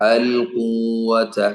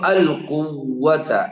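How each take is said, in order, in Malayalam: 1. ഒറ്റ w ഉപയോഗിച്ച് ആദ്യ സ്വരം നീട്ടുന്നു. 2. ഹ്രസ്വ സ്വരത്തിന് ശേഷം w ശബ്ദം ഇരട്ടിപ്പിക്കുന്നു. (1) "ഖാഫ് നീട്ടലാണ് സംഭവിക്കുക" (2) "വാവിന് ഷദ്ദ"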